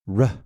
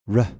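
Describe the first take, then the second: Both takes have the same delivery.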